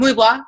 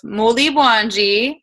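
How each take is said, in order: First: The greeting is clipped short and said fast. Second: The greeting is said in full, unhurried.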